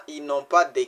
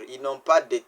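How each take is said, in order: Both takes have the same delivery.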